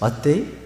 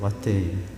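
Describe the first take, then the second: First: It is said as an American-accented question. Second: It is said in a Gyeongsang Korean dialect. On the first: Asking what day it is. "무슨 요일이라는 뜻인가?" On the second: The bus has arrived. "경상도 사투리로 왔대 그랬답니다"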